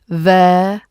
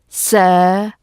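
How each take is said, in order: First: The word begins with a th sound. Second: The word begins with an s sound. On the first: The speaker calls it right. "It's there" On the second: The speaker calls it wrong. "or a s"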